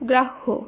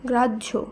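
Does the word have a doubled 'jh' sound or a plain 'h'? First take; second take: plain h; doubled jh. First: The middle sounds like a plain single h. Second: The middle sounds like a doubled jh. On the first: The speaker calls it wrong. "এইভাবে নয়" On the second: The speaker calls it right. "এইভাবে জজ হ যোগে"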